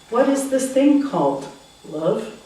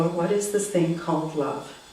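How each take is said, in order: First: There is a pause before the word love. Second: There is no pause before the word love. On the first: Love is a term of address for the listener. "Love can be a nickname" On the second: Love is the thing being asked about. "or it can be a noun"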